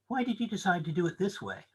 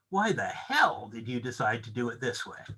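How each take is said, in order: First: The question is asked in a neutral tone. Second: The question is asked in a hostile tone.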